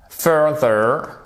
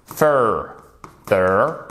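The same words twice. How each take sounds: First: "Further" with the first syllable stressed. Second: "further" split into two syllables, fur, then ther. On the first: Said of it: "faut bien faire l'accent tonique qui est sur la première syllabe". (« Further » accentué sur la première syllabe) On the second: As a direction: slowly break "further" apart with a pause between syllables. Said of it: "l'accent tonique qui est sur la première syllabe". (« further » découpé lentement en deux syllabes) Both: Shown as a demonstration.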